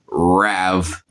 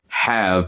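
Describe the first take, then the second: First: The word starts without any H sound. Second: The word starts with a clear H sound. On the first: The speaker calls it right. "You say it kind of like rav. ... you drop the H" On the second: The speaker calls it wrong. "You don't say stuff like have"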